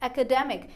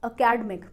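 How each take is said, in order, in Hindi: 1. Stress syllable 'de' पर है। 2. Stress syllable 'de' पर नहीं है। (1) "डी ई वाले पार्ट को हमें जोर से बोलना है" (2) "बहुत सारे लोग गलत प्रोनाउंस करते हैं"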